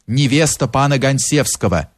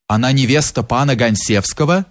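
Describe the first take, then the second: First: Understated narrated cry, falling on «Гонсевского»; insistent cry. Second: Rising question on «Гонсевского». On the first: Maid insists to the mob, mildly crying out. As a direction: assert it, ending «Гонсевского» on a fall. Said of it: "продолжала кричать горничная". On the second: Bychura checks the maid's claim about the bride, questioning. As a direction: lift «Гонсевского» slightly, as a question. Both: A narrator's reading.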